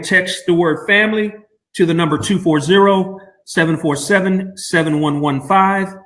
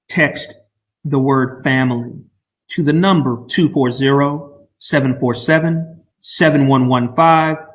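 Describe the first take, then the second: First: It is said at a quicker pace. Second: It is said slowly and deliberately.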